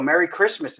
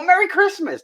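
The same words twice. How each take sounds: First: Said in the usual way. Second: Merry Christmas sung out much higher; higher, excited Merry Christmas back. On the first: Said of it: "you go". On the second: Retold or imitated. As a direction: greet back with a burst of joy. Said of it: "they get excited too".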